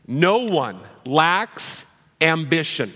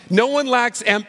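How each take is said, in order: First: "no one lacks ambition" said slowly, each word weighted, falling on "no"; emphatic slow statement. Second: "No one lacks am-" scoffed higher and cut off; mocking parent echo. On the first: Acted. Pastor stating his first building block, slow and weighty. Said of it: "first building block, no one lacks ambition". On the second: Pastor voicing a parent mocking his claim, higher and scoffing. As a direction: sneer back "No one lacks am-" as a doubting parent, pitch raised. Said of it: "I can hear the parents almost seething".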